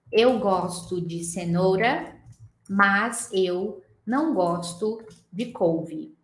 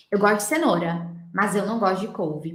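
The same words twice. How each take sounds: First: Eu gosto de cenoura said very slowly, each word separate; slow careful Portuguese. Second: Mas eu run together as masz eu, normal speed; natural linked speech. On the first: Teacher saying a Portuguese sentence slowly and unlinked. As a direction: spell the sentence out slowly, no linking. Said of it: "eu viro pra você e falo assim". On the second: Teacher showing natural linking in Portuguese. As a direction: link mas into eu with a Z sound. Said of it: "De onde eu tô tirando esse mas eu?". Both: Shown as a demonstration.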